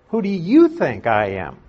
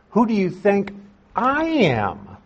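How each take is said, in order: First: Said in the usual way. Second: "I" pushed up high and leaned on in "Who do you think I am?"; stress on I. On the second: Shown as a demonstration. Preacher to congregation, showing the emphatic Greek "I", "I" stressed high. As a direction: lift "I" well above the rest and hold it. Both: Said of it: "I," ... is very, very emphatic".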